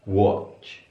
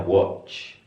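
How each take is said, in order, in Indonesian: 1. Kata ini diucapkan dengan vokal o bulat ala Inggris. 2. Kata ini diucapkan dengan vokal o bulat ala Inggris.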